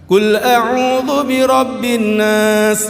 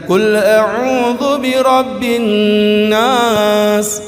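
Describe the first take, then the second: First: The doubled n is said short. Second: The doubled n is held for three beats. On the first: The speaker calls it wrong. "Banyak imam-imam ngajinya begitu, salah" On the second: The speaker calls it right. "Nun tasdid itu guna ditekan tiga tiga ketukan"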